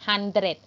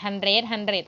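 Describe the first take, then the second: First: HUNDRED with a short final "dret"; short pronunciation. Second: HUNDRED HUNDRED with a lengthened second syllable; common mispronunciation. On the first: Teacher explaining the short vowel to pupils, short pronunciation. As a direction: cut the end of HUNDRED short. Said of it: "จะให้ออกเสียงสั้นไง". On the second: Teacher quoting how people wrongly say it, mispronounced hundred. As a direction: drag the "red" in HUNDRED as a mistake. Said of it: "ที่ออกเสียงกัน hundred hundred อะไรเนี่ย ผิด". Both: Shown as a demonstration.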